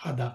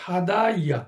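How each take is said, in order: First: হাদা said short, ending on the open আ with no ইয়া; spoken form. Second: হাদা ইয়া with the final ইয়া sounded out; original root form. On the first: Teacher gives the spoken form হাদা, clipped pronunciation. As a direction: drop the ending, just হাদা. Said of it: "তার উচ্চারণটা হচ্ছে হাদা". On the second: Teacher shows the root form হাদা ইয়া, careful pronunciation. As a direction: spell out হাদা ইয়া, ending on a clear ইয়া. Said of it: "কিন্তু তার উচ্চারণটা হচ্ছে হাদা". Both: Shown as a demonstration.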